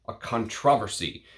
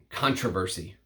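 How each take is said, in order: First: It is said the British way. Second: It is said the American way.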